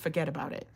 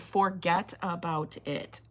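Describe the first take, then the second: First: The words are run together into one. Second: The words are said separately and carefully. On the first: The speaker calls it right. "it's like a stream of conscious words popping out your mouth" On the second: The speaker calls it wrong. "You can't say forget about it. That's not how you say it"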